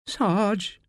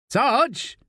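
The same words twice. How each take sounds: First: Timid whimper, pitch lifted; small, higher plea. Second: High-pitched call. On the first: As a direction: whimper it to the sergeant for help. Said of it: "whimpers Pulford". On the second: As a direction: call out to your sergeant. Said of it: "calls Pulford". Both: A narrator's reading.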